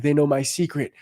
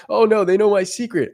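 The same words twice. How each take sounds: First: Said in the usual way. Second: High, loud hammed-up panic; mock panic. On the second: Mocking a fearful guy to viewers, hammed-up panic. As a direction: squeal it like a caught-out guy. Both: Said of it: "They might be going".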